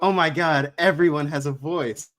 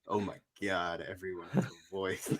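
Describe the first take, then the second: First: It is said in an amazed, delighted tone. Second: It is said in a dismayed, exasperated tone. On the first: It is wonderful that everyone can speak. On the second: It is a problem that everyone can speak. "you just change the inflection and it's like a, a dual-sided statement"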